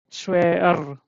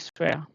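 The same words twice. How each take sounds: First: The final r is pronounced strongly. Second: The final r is nearly silent. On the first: The speaker calls it wrong. "this is not like, you know" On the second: The speaker calls it right. "It should be swear. the last one should be little silent, not too much"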